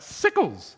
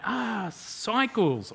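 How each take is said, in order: First: Mock yell in a Deep South accent, high then falling; broad Deep South accent. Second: Slow, higher "ah" as the penny drops; dawning realization. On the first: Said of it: "very broad accent from the deep south yells out". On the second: Retold or imitated. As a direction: draw it out, finally understanding. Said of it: "And we're like".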